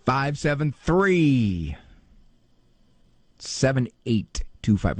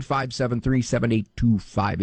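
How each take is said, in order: First: Drawn-out, half-speed number readout; exaggeratedly slow. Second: Said in the usual way. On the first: Shown as a demonstration. Host spoon-feeds the phone number to slow note-takers, exaggeratedly slow. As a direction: stretch each digit out with long pauses. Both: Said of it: "Say it slower".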